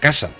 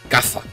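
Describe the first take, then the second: First: The middle consonant is a plain s sound. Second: The middle consonant is a lisped th sound. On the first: "Era casa" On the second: "con Z"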